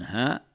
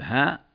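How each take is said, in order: First: The vowel is short and the word ends abruptly. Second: The vowel is drawn out long. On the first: "بالقصر مع السكون هاء" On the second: "هاء بالمد"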